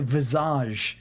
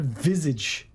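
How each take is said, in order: First: The word has a French pronunciation. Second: The word has an English pronunciation. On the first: "I say visage" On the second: "instead of visage"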